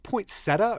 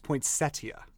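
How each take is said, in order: First: Poinsettia as poyn-SET-uh; poinsettia with no "ee" before the last vowel; pronounced without the i. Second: Poinsettia as poyn-SET-ee-uh; poinsettia with an "ee" before the last vowel; pronounced with the i. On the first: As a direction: say poinsettia in three syllables, ending SET-uh. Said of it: "is it pronounced poinsettia or is it". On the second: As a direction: say poinsettia in four syllables, ending SET-ee-uh. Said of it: "or is it pronounced poinsettia". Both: Shown as a demonstration.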